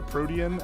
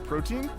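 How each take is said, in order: First: It is said as pro-tee-an. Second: It is said like the word protein. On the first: The speaker calls it right. "pronounced uh, Protean" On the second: The speaker calls it wrong. "and not Protein"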